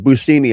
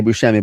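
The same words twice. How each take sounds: First: The middle consonant is a plain 's' sound. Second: The middle consonant is a 'sh' sound. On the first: This is the original Sicilian way to say it. The speaker calls it right. "is how it's pronounced" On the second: This is how most people say it. The speaker calls it wrong. "I still say Buscemi"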